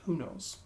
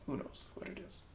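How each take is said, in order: First: Said in the usual way. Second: A hushed, wondering whisper. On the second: Real, not acted. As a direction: whisper "Who knows what it is?" softly. Musing aloud, then whispered repeat.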